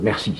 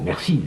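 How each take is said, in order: First: It is said curtly and dismissively. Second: It is said warmly and sincerely. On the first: That is enough, move on to the next one. "ça veut dire ça va, terminé, passons au suivant" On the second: The person's contribution is truly valued. "on dit vraiment merci, je vous remercie, on accorde de l'importance"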